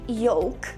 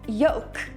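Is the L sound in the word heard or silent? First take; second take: heard; silent. First: The L sound is clearly pronounced. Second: The L sound is left silent. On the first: "I pronounced the word yolk with an L sound" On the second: "pronounce it with a silent L sound"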